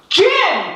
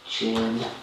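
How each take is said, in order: First: It is said loudly. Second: It is said quietly.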